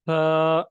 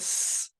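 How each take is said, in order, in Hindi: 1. व्यंजन एक नरम th है, बिना सीटी की आवाज़ के। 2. व्यंजन एक फुफकार वाला, सीटी जैसा s है। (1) "सीटी की आवाज़ नहीं आएगी।" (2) "ये आवाज़ नहीं आनी चाहिए।"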